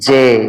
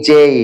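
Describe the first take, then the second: First: The letter is said in a local Bengali way. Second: The letter is said in an English way. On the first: The speaker calls it wrong. "আমরা বলি জে, this is wrong" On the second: The speaker calls it right. "This would be correct pronounce"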